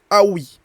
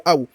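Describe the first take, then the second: First: "awi" with a linking i after aw; linked with wasl. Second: Said in the usual way. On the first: Shown as a demonstration. Teacher showing students the wasl, linked pronunciation. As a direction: say "awi", ending on an i vowel for the link. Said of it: "on va faire le wasl". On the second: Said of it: "Sinon, c'est aw".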